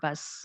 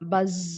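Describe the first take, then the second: First: The word ends with a hissing s sound. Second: The word ends with a buzzing z sound. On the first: The speaker calls it wrong. "It is not buzz" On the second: The speaker calls it right. "Z sound"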